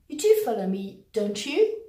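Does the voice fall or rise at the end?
rise. The voice rises at the end of the tag. The speaker is unsure the listener follows. "I'm unsure you've actually understood me"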